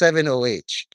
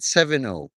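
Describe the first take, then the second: First: The name ends with the letters O H. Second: The name ends on the letter O. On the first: The speaker calls it right. "It's seven O H" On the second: The speaker calls it wrong. "I've been pronouncing it seven O, like a fucking unk"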